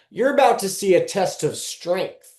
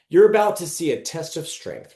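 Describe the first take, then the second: First: It is read in a sarcastic, commanding tone. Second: It is read in a plain, neutral tone.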